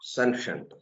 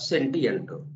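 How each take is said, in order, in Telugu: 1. మధ్యది 'sh' అని పలుకుతారు, రెండు అక్షరాలుగా. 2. మధ్యది 't-ee' అని పలుకుతారు, రెండు వేర్వేరు అక్షరాలుగా. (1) "దాన్ని పలికే విధానం ఏంటంటే సెన్షంట్" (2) "కానీ అట్లా పలకూడదు అది"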